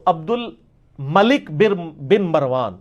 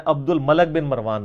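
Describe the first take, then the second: First: "الملک" drawn out slowly, with an i in the last syllable, "malik"; claimed true pronunciation. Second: "الملک" with an a in the last syllable, "malak"; rejected pronunciation. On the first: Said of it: "یہ وہ کہتے ہیں true pronunciation ہے". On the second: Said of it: "نہیں ہے". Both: Shown as a demonstration.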